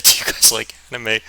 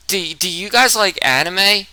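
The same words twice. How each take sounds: First: Said in the usual way. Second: Slow hesitant question, own voice shifted; timid newcomer asking the table; nervous asking. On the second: Retold or imitated. New kid nervously asking classmates about anime, slow and hesitant. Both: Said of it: "I literally said".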